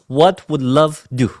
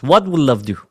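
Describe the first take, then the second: First: "what would love do?" slow and deliberate; slow key question. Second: Said in the usual way. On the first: Shown as a demonstration. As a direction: lay each word out slowly. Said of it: "And the question is". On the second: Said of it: "Just reflect on this question".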